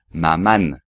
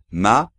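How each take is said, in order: First: A separate n consonant is pronounced at the end. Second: The final vowel is nasal with no separate n. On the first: The speaker calls it wrong. "sobre todo no hay que decir maman" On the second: The speaker calls it right. "sino maman"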